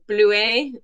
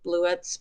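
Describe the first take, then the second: First: It is pronounced the French way, no final s. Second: It is pronounced the English way, final s sounded. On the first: "I like to pronounce it the French way" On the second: "I'm sure people say Bluets"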